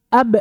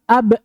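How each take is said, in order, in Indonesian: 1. Konsonan akhir dipotong oleh hentian glotal. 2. Konsonan akhir dipotong oleh hentian glotal.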